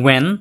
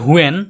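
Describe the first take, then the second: First: The word begins directly with a w sound. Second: The word begins with a breathy h sound. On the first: The speaker calls it right. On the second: The speaker calls it wrong. "এটা অনেকে বলি হুয়েন। হুয়েন হবে না"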